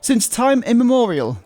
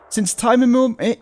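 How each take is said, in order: First: It is said in a pressed, put-on narrator voice. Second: It is said in a normal speaking voice. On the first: "pressure from my diaphragm to do that weird voice" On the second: "can't say it in that voice though"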